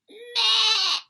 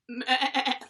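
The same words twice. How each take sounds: First: It is said in a high, small voice. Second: It is said in a lower, bigger voice.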